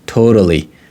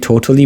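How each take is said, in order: First: The middle consonant is a soft flapped D. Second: The middle consonant is a clear T sound.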